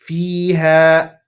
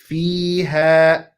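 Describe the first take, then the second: Both takes have the same delivery.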